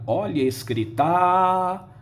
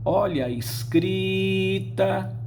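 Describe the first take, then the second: First: The stress falls on a syllable other than cri. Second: The stress falls on the middle syllable, cri. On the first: The speaker calls it wrong. "Ninguém diria" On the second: The speaker calls it right. "em escrita, a sílaba tônica é o cri"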